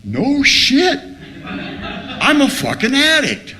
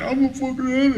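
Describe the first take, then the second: First: Stunned realization. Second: High, whimpering retold sob; mock crying. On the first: Retold or imitated. Addict acting out reading the first step, stunned realization. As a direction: cry it out high as it dawns on you. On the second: Addict retelling his early clean days, mock crying. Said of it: "I started crying".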